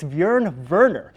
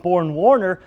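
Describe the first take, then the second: First: The first name starts with a 'by' sound. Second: The first name sounds like 'born', without a 'y'. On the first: The speaker calls it right. "The more proper pronunciation is Bjorn Werner" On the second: The speaker calls it wrong. "Colts head coach Chuck Pagano called him Born Warner"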